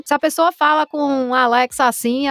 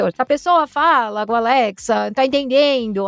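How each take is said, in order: First: Regional Brazilian accent, lightly done; demonstrated accent. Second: Put-on Brazilian regional accent; imitated regional accent. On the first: Voice artist showing accents Alexa must understand, light regional accent. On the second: Voice artist showing accents Alexa must understand, put-on regional accent. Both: Shown as a demonstration. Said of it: "tem que entender esses sotaques".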